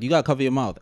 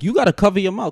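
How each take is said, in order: First: Said in the usual way. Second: Higher-pitched, exasperated telling-off; insistent retold scolding. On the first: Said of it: "I'm not gonna be like". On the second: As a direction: press the demand like a fed-up passenger. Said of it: "'cause my whole thing is like".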